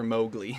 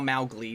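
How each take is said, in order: First: The first syllable rhymes with go. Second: The first syllable rhymes with cow. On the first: The speaker calls it wrong. "not Lawnmower Mowgli" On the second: The speaker calls it right. "Papa Uma Mau Mau Mowgli"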